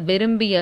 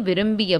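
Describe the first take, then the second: No difference in how they are said.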